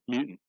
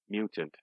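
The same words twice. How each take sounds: First: The word is pronounced in a lazy, clipped way. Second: The word is pronounced fully and carefully. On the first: The speaker calls it wrong. "a lot of people are so lazy when they talk" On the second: The speaker calls it right. "so glad that you say mutant"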